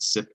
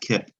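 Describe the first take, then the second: First: The syllable begins with an S sound. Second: The syllable begins with a K sound. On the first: The speaker calls it right. "C followed by an I is going to be a soft C making an S sound" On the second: The speaker calls it wrong. "not kip"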